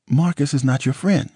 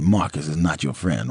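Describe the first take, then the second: First: High, tearful woman's voice; Nicole's upset voice. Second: Disbelieving repeat. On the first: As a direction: voice her pitched up and pleading. Nicole warns him, near tears. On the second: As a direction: echo it back in disbelief. He repeats her words in disbelief. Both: Acted.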